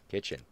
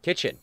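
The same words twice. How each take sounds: First: Said in the usual way. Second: Squeaky high kitchen; high squeak. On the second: Shown as a demonstration.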